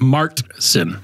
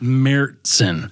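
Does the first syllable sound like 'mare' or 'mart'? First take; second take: mart; mare. First: The first syllable ends in a hard T. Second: The first syllable sounds like 'mare'. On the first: "in the United States, it's often pronounced as Martzen with a hard T sound" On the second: "It is M A R E dash T S E N is the correct pronunciation"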